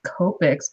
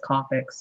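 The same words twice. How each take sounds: First: "Copics" with a long OH, like "cope". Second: "Copics" with an AH, like "cop"; short-o Copics. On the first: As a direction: say "Copics" as KOH-piks. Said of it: "I always say Copics". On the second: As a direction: say "Copics" as KAH-piks. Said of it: "but everybody else says Copics". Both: Shown as a demonstration.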